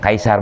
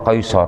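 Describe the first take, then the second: First: It is said with an Indonesian-style pronunciation. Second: It is said with an Arabic-style pronunciation. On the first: "kaisar bahasa kitanya ya" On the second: "Dalam tulisan Arabnya pakai kop, kaisor"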